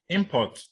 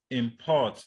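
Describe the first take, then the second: First: Import as IM-port, falling on port; front-stress import on IM; stress on first syllable. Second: Import as im-PORT, second syllable strong; stress on second syllable. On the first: Teacher giving the noun, import stressed on IM. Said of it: "the noun". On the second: Teacher giving the verb, import stressed on PORT. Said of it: "that's the verb". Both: Shown as a demonstration.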